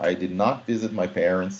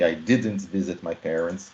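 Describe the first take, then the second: First: Did and not are said as two full words. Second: Did and not are joined into one contraction. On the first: "é a mesma coisa" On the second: "naturalmente, quando a gente fala, a gente fala didn't"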